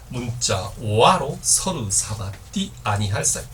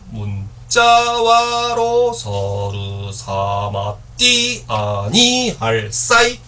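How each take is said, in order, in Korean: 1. 이 구절은 꽤 고른 음높이로 읽습니다. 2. 음절들이 낮은 음과 높은 음을 번갈아 갑니다.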